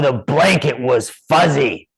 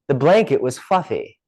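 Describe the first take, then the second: First: It is said in a dramatic, epic tone. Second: It is said in a plain, ordinary tone. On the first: "make it sound so epic with your tonality" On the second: "Most people would say"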